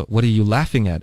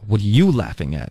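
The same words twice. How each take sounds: First: Main stress on "laughing", wanting to join in; friendly curious question. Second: "you" punched, taking offence at the laughter; challenging stress on YOU. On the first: Teacher demonstrating someone wanting to hear the joke, stress on "laughing". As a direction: ask with the weight on "laughing", not on "you". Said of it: "哎，你们在笑什么". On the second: Teacher demonstrating a challenge to someone laughing, stress on "you". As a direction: lean hard on "you", as a challenge. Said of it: "你笑什么笑啊". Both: Shown as a demonstration.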